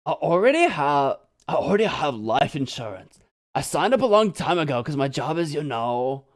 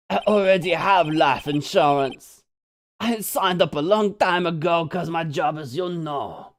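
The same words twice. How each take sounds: First: Lightly voiced laid-back surfer; surfer dude voice. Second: Lightly voiced laid-back surfer; casual surfer dude, subtle. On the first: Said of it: "You like the other voice I gave him?". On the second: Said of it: "the other voice I gave him".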